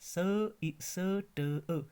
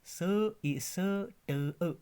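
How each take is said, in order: The two takes are said the same way.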